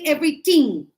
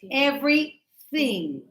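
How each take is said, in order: First: The middle consonant is a hard 't' sound. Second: The middle consonant is a soft 'th' sound. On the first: The speaker calls it wrong. "Don't say everything" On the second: The speaker calls it right.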